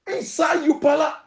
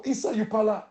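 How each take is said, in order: First: Inside your pala repeated higher, stressing your; your pala said with rising emphasis; emphatic repeat. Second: Said in the usual way. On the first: Shown as a demonstration.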